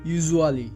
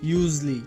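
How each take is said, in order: First: Every syllable is sounded out fully. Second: The middle syllables are squeezed together. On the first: The speaker calls it wrong. "এটি ভুল উচ্চারণ" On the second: The speaker calls it right. "এর সঠিক উচ্চারণটি হবে ইউজলি"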